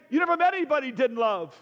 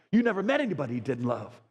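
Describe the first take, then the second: First: Repeated higher and louder, hitting "met"; the line again as a loud sermon peak; preaching climax. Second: Said in the usual way. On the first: Real, not acted. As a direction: punch it out to the room, stressing "met".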